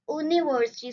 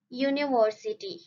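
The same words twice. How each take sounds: First: The word begins with a plain vowel sound. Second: The word begins with a y consonant sound. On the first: The speaker calls it wrong. "We do not say university" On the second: The speaker calls it right. "first sound is Y's ear sound, which is consonant sound. So we say university"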